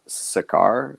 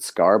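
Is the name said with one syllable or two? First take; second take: two; one. First: The name is said as two syllables. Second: The name is said as one syllable. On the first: The speaker calls it right. "but I guess it's Sakaar" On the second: The speaker calls it wrong. "I've always pronounced it Scar"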